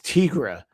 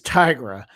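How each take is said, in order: First: The first part does not sound like 'tiger'. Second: The first part sounds like the word 'tiger'. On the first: The speaker calls it wrong. "I read it as Tigra" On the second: The speaker calls it right. "but she's a tiger, so her name is Tigra"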